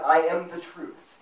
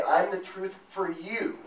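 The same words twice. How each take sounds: First: "I am the truth", slow, louder, each word weighted; firm declaration. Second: Slow, stress on "I'm" and "for you", rising; "I'm the truth for you" with a doubtful rise on "for you"; wrong version. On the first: Preacher gives the true wording, slow and emphatic. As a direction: land "truth" flat and final. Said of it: "He said". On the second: Preacher mocks a relativist misquote, slow with a rising end. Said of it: "Jesus didn't say". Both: Shown as a demonstration.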